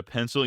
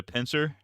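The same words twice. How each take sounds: First: Said in the usual way. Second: "pincer" as pencil ending in R. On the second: Shown as a demonstration. Streamer asks for a pencil, "pincer" with R replacing L. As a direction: end "pincer" on an R where pencil has L. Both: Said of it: "replacing my L's with R's".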